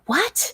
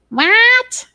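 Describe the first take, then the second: First: It is said with a mild, ordinary accent. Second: It is said with an exaggerated Midwestern accent. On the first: "I'll be like" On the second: "daughter will intentionally exaggerate her Midwestern accent"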